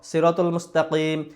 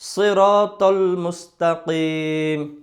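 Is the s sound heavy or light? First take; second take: light; heavy. First: The s sound is thin and light. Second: The s sound is thick and heavy. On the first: The speaker calls it wrong. "তাহলে কি পরিপূর্ণ মোটা হয় না।" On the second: The speaker calls it right. "তাহলে কি বলতে হবে?"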